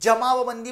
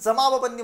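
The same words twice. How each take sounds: First: The first consonant is a palatal j sound. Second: The first consonant is a dental dz sound. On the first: The speaker calls it wrong. "जमावबंदी म्हणत नाही" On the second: The speaker calls it right. "आपण जमावबंदी म्हणतो"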